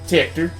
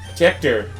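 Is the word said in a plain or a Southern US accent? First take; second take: Southern; plain. First: It is said in a Southern US drawl. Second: It is said in a plain, neutral accent.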